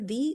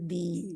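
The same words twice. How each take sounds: First: The vowel is said short. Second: The vowel is said long. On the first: "दाल जेर दी" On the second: "दाल खड़ी जेर दी"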